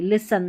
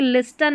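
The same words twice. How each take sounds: First: लिसन with no T, li-san; लिसन as the correct form, T silent. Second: लिस्टन with the T sounded, lis-tan; लिस्टन said wrongly with a clear T; wrong pronunciation. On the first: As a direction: say लिसन, dropping the T. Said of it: "लिस्टन नहीं, लिसन". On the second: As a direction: say लिस्टन with a T, the mistake. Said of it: "लिस्टन नहीं". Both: Shown as a demonstration.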